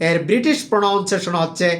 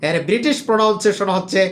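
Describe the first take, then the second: No difference in how they are said.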